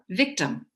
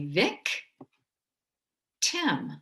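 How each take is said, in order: First: The two syllables are joined without a pause. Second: The two syllables are split by a pause. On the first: "change it to the way we say it" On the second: "If I were to separate this word"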